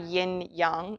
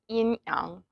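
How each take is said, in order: First: 'Yang' is said with an English 'ya' sound. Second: 'Yang' is said without an English 'ya' sound. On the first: The speaker calls it wrong. "it's not actually yin yang" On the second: The speaker calls it right. "You don't say the ya in Chinese"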